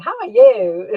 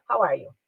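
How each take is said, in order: First: How are you? louder, with a rise on you; How are you? with a forced enthusiastic lift at the end; Brazilian sing-song. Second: How are you? flat, with no lift in pitch; How are you? said evenly, no sing-song; no inflection. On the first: Retold or imitated. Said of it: "eles falam assim". (How are you? cantado, com entusiasmo forçado, como brasileiro) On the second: Shown as a demonstration. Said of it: "Eu posso fazer assim, sem nenhuma". (How are you? sem nenhuma inflexão)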